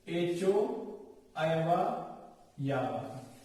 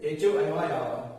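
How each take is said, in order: First: It is said at a normal, unhurried speed. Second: It is said quickly, at a fast speed.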